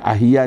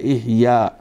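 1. यह शब्द 'a' स्वर से शुरू होता है। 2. यह शब्द 'i' स्वर से शुरू होता है। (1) "लोग इसको अहिया पढ़ते हैं, अहिया नहीं है" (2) "नहीं है इहया"

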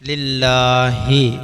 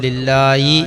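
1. അവസാന സ്വരത്തിന് മുമ്പ് h ശബ്ദം വരുന്നു. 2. അവസാന സ്വരത്തിന് മുമ്പ് y ശബ്ദം വരുന്നു. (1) "ഹാഇന് കസർ കൊടുത്ത് പറയണം" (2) "യാഇന് കസർ കൊടുത്ത്"

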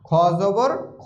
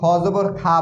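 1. শেষের স্বরটি গোলাকার 'o' ধ্বনি। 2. শেষের স্বরটি খোলা 'a' ধ্বনি। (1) "খ জবর খ হবে" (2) "অনেকেই খ জবর খা বলে"

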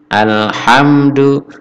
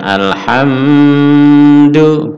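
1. Huruf M dibaca pendek, tidak ditahan dengung. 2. Huruf M ditahan dengan dengung. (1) "jadi cukup hamdu" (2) "bukan ditahan dengung"

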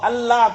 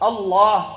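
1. 'l' ను తేలికగా, సన్నగా ఉచ్చరిస్తారు. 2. 'l' ను భారీగా, నిండుగా ఉచ్చరిస్తారు. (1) "అల్లా కాదు" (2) "తఫ్ఖీమ్ అంటే లఫ్జే జలాల్, అది అల్లాహ్"

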